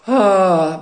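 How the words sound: The 'ah' sounds sad and sorrowful. It releases sorrow. "or of sorrow"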